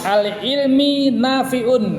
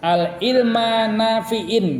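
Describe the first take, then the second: First: The words end in -i and -un. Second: The words end in -a and -in. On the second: "Tidak boleh dibaca"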